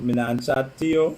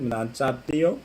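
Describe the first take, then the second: First: Bajan accent. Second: Said in the usual way. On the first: Shown as a demonstration. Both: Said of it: "You hear the Bajan accent?".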